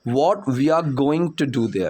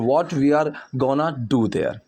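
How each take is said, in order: First: Going to is said as two full words. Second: Going to is squeezed into one short word.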